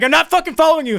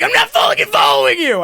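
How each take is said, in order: First: Wide-eyed denial. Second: High, loud panicked yell; mental scream. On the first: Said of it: "my eyes go wide. I'm like". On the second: Man's brain screams at the one he's following, panicked. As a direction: scream the denial as if inside your head. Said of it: "I didn't scream that, but my brain's like". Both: Retold or imitated.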